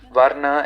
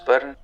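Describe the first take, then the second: First: The word is said in its Sanskrit form. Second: The word is said in its Hindi form. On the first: "Varna in Sanskrit" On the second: "in Hindi it becomes Varn"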